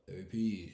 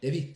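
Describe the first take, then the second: First: It is said very slowly. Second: It is said very fast.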